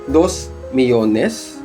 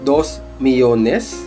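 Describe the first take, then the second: Both takes have the same delivery.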